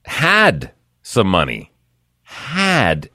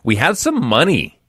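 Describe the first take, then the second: First: Had punched and drawn out slowly; slow down and hit Had hard; stress on HAD. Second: Some leaned on, had said lightly; stress on some. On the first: Host correcting the listener, slow stress on Had. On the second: Host misreading the check amount, stress on some. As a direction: put the weight on some, not had. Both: Shown as a demonstration. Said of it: "as in past tense".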